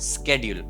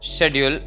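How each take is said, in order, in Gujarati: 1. શબ્દ 'sk' અવાજથી શરૂ થાય છે. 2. શબ્દ 'sh' અવાજથી શરૂ થાય છે. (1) "અમેરિકામાં આને સ્કેડ્યુલ બોલે" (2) "એનો ઉચ્ચાર થાય છે શેડ્યુલ"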